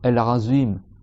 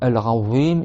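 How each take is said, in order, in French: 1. La consonne est un son 'z' bourdonnant. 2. La consonne est un 'th' doux. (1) "ils font un za, za, un za... Ça, c'est faux" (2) "au lieu de dire"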